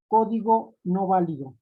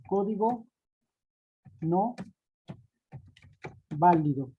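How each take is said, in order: First: Said in the usual way. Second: "Código", "no", "válido" each set apart with long pauses; slow dictation. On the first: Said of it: "con acento en la O". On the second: Shown as a demonstration. Teacher spelling out the error text with its accents, slow and deliberate. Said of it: "con sus respectivos acentos".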